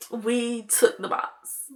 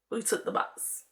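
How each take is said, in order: First: Said in the usual way. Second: Soft unvoiced whisper, like owning up; barely-there whispered repeat; hushed confession. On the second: Real, not acted. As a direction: whisper it, drawn back and secretive. Same line repeated in a whisper.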